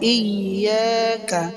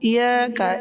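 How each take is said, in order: First: The y sound is held double. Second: The y sound is single and short. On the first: The speaker calls it right. "এখানে ইয়া দুইবার হবে" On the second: The speaker calls it wrong. "যদি কেউ বলে ইয়াকা ইয়াকা এরকম যদি বলে নামাজ হবে না"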